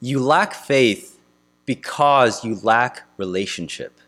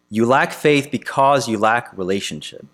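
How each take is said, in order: First: "You lack faith" slow and weighty, a pause, then "because you lack relationship" falling; slow emphatic point. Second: Said in the usual way. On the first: Real, not acted. Preacher driving home the point to the congregation, slow and weighty. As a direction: lay down each word deliberately.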